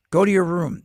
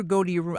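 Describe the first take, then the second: First: Loud, commanding parent voice; stern parent order. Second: Said in the usual way. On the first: Retold or imitated. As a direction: bark it like a strict parent sending a kid off. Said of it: "That's kind of a cult". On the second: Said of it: "'Cause when you hear".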